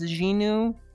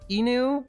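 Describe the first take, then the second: First: The name starts with a J sound. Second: The name starts directly with a vowel sound. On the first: "That's like a J sound" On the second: "I assume we don't pronounce the Z"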